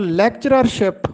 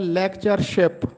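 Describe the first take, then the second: First: An extra 'rer' syllable comes before 'ship'. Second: Only one 'r' syllable comes before 'ship'. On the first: The speaker calls it wrong. "अक्सर लोग इसको लेक्चररशिप पढ़ते लिखते और बोलते हैं" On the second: The speaker calls it right. "जबकि दुरुस्त तलफ़ुज़ है लेक्चरशिप"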